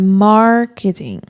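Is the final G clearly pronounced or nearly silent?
nearly silent. The R is strong and the final G nearly vanishes. This is the original English way of saying it. The speaker calls it right. "na pronúncia original do inglês, o R é muito mais forte, então é marketing"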